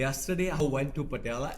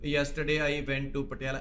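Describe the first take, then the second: First: It is said expressively, with lively energy. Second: It is said flatly, without expression. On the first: The speaker calls it right. "ऐसे बोल रहे हैं कि आपका चेहरा express करे" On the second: The speaker calls it wrong. "ये नहीं है कि आप बोल रहे हो"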